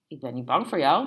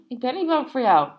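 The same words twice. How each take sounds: First: Said in the usual way. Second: Raised voice, higher and louder; defiant repeat. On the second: A narrator's reading. Barmaid stands up to threatening customer, defiant. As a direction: push it out high and forceful.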